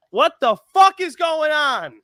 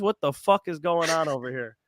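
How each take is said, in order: First: High, exasperated disbelief; exasperated outburst. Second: Said in the usual way. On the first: Real, not acted. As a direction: throw up your hands in disbelief. Repeated outburst, much higher.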